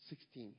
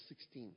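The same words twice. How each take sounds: The two takes are said the same way.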